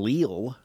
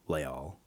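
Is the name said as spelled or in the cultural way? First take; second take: as spelled; cultural. First: The name is pronounced just as it is spelled. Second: The name has its traditional cultural pronunciation. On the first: "the way you say it when you read it" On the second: "One is the appropriate cultural way to say it"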